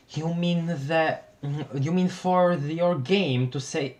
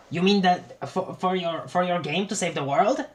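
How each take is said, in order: First: Reply in the swapped voice; wrong character voice. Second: Higher, questioning character voice; corrected character voice. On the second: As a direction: redo the reply in the right voice. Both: Acted. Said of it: "I messed up the frickin' voices".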